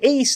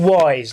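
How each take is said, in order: First: The name rhymes with fleece. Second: The name does not rhyme with fleece.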